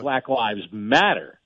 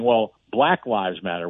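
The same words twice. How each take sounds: First: "matter" carries the weight, said slowly; stress on matter. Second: "black" hit hard, slow and deliberate; stress on black. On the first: Host showing the slogan's true emphasis, stressing "matter". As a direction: land the whole phrase on "matter". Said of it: "the emphasis should be on the word matter". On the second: Host showing how people misheard the slogan, stressing "black". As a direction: lean on "black" over the rest of the phrase. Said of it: "putting the emphasis on the word black". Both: Shown as a demonstration.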